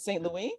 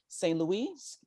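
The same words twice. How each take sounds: First: Saint Louis has a French pronunciation. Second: Saint Louis has an American English pronunciation.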